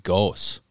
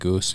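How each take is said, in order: First: The name is given its original German pronunciation. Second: The name is given its everyday family pronunciation. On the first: This is how the name technically should be. "It's actually technically supposed to be Goos. German" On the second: This is how everybody actually says the name. "as long as I've been alive, it's always been Goos"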